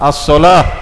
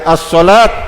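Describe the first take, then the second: First: The word ends with an h sound. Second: The word ends with a t sound. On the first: The speaker calls it right. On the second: The speaker calls it wrong.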